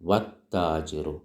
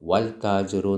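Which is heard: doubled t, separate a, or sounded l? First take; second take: doubled t; sounded l. First: No separate 'a' or 'l'; the t is doubled. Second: An 'l' sound is pronounced before the t. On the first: The speaker calls it right. "അലിഫ് ഉച്ചരിക്കൂല, ലാം ഉച്ചരിക്കൂല" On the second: The speaker calls it wrong. "ലാം ഉച്ചരിച്ചോ? വൽ താജിറു എന്ന് പറഞ്ഞോ? ഇല്ല"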